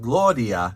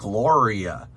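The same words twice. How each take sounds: First: The R is a quick flap, like a D. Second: The R is a smooth American-style R sound. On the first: The speaker calls it right. "like a little D sound" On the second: The speaker calls it wrong. "that would be closer than Gloria"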